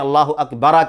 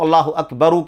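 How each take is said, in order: First: The last word ends with an 'a' vowel. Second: The last word ends with a 'u' vowel. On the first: The speaker calls it wrong. "गलत है वो, लेकिन माना तब्दील नहीं होगा" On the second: The speaker calls it right. "अल्लाह अकबरू के बजाय"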